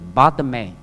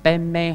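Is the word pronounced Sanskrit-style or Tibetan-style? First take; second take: Sanskrit; Tibetan. First: It is pronounced in the Sanskrit way. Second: It is pronounced in the Tibetan way. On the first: "梵文是Padme" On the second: "西藏的舌头比较大一点，Padme 它就整成Padme Hum"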